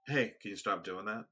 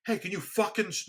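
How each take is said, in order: First: Said in the usual way. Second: Retold angry outburst, pitched high; losing it. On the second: Speaker retelling how he snaps after repeated asking, losing it. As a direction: suddenly lose patience, higher and sharper. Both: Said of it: "lose it, you know".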